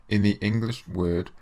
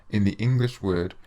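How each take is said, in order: Both takes have the same delivery.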